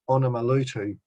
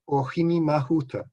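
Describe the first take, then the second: First: The name is said as Onamalutu. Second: The name is said as Ohini Mahuta. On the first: This is a misheard form of the name. The speaker calls it wrong. "misheard it and started mispronouncing it" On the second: This is the original form of the name. The speaker calls it right. "the correct pronunciation"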